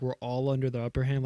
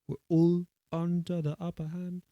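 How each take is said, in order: First: It is said in an American accent. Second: It is said in an English accent. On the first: The speaker calls it wrong. "like the American way that I just said it, it doesn't sound right" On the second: The speaker calls it right. "like an uh sound or like a oo sound instead of like an ah"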